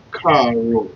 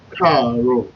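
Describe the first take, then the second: First: Karo as one word, KA-ro falling; Karo joined up. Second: Karo said again, same falling tune; Karo repeated. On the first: Teacher joining syllables into Karo. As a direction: blend ka and ro into Karo. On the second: Teacher repeating Karo for learners. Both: Shown as a demonstration. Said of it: "it's gonna sound like".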